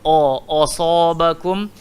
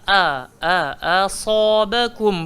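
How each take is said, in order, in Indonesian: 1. Vokal pertama dibulatkan seperti 'o'. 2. Vokal pertama adalah 'a' terbuka. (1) "nanti dia jadi o asabakum" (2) "So dia kena wama a a asabakum"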